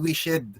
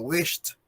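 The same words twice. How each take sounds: First: The ending is said as a separate extra syllable. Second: The ending is said as a plain t sound. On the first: The speaker calls it wrong. "Para hindi siya maging wished" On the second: The speaker calls it right. "we pronounce the E D as letter T"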